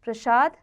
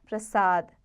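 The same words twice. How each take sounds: First: प्रसाद with sh, ending lifted; wrong sh sound. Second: प्रसाद with s, ending falling; correct s sound. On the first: Teacher shows the error, प्रसाद with sh. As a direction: say प्रसाद as prashad. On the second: Teacher corrects it, प्रसाद with s. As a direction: say प्रसाद as prasad. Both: Shown as a demonstration. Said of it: "स संबंधी".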